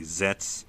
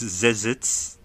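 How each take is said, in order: First: The name is said quickly, squeezed together. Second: The name is said slowly, with every syllable. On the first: "they kind of just say it really fast in the show and say Zets" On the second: "it's Zezits"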